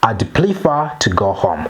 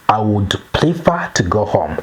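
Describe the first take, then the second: First: I would is shortened into one syllable. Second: I would is said as two full words.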